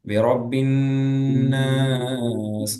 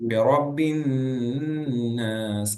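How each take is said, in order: First: The n is held with a nasal ghunna. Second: The n is held with a nasal ghunna.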